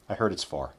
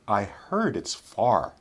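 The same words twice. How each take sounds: First: The sentence is spoken at a quick pace. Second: The sentence is spoken at a slow pace. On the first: "then we'll say them quickly" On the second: "first we'll say them slowly"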